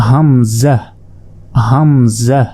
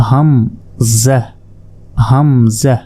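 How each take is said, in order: No difference in how they are said.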